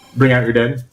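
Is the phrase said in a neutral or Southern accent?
neutral. It is said in a neutral, ordinary accent. The speaker calls it wrong. "No, say it right"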